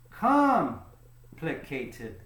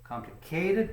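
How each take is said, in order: First: The stress falls on the first syllable. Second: The stress falls on a later syllable. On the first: The speaker calls it right. "it actually goes here" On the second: The speaker calls it wrong. "Many people think it goes here, but it doesn't sound right"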